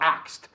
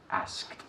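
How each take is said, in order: First: The k sound comes before the s. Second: The s sound comes before the k. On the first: The speaker calls it wrong. "No axed" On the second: The speaker calls it right.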